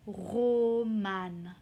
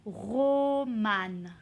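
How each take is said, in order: First: Said in the usual way. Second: First syllable ro drawn out, louder; teacher modelling a name. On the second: Shown as a demonstration. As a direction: say "Romane" slowly, leaning on "ro". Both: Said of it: "Entends-tu ro au début du mot?".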